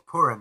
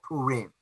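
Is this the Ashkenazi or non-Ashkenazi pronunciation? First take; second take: Ashkenazi; non-Ashkenazi. First: It is said the Ashkenazi way. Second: It is said in a non-Ashkenazi way.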